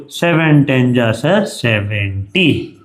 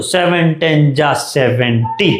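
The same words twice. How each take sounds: First: Chanted, slow sing-song recital like a schoolkid; lightly mocking slow chant of the table. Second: Put-on slow kid chant, सेवेंटी said with a rising flourish; hammed-up table chant ending on सेवेंटी; mock emphatic seventy. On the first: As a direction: drag out सेवन टेन जा सर सेवेंटी as kids chant tables. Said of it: "ऐसा पढ़ते होगे आप". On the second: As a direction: chant it slowly, landing on सेवेंटी with a mild mock lift. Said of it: "कितना जोर से बोलते हो".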